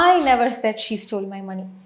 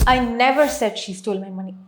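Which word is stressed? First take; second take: I; never. First: The stress falls on the word I. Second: The stress falls on the word never. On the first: Someone else said it, not me. "அவள் பணத்தை திருடினான்ட்டு நான் சொல்லலை" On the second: Saying it never happened at all. "அவள் என் பணத்தை திருடினான்னு நான் சொல்லலை, அப்படின்னு நடக்கலை"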